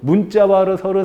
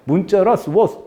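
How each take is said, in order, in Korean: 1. 처음부터 끝까지 음높이가 평평해요. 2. 성조처럼 음높이가 오르내려요. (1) "밋밋하게 가지만" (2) "약간 중국 느낌 나죠"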